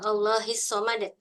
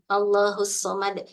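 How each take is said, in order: First: The word Allah ends with an i vowel. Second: The word Allah ends with a u vowel. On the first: The speaker calls it wrong. "itu nggak begitu bacanya" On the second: The speaker calls it right. "kita kan hafal surat Al-Ikhlas nih"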